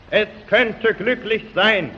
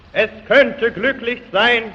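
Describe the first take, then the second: No difference in how they are said.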